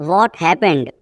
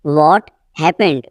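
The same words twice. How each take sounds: First: Said in the usual way. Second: Teacher's slow split before "happened"; slow repeat. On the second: Shown as a demonstration. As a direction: pause after "What". Teacher repeats sentence slowly.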